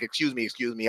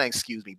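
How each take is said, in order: First: Soft, dainty "Excuse me, excuse me" with a lilt; mincing, overly polite "Excuse me, excuse me"; prissy excuse me. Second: Said in the usual way. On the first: Shown as a demonstration. Coach mocks the wrong way to say it, dainty and prissy. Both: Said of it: "I didn't want to really say it like that".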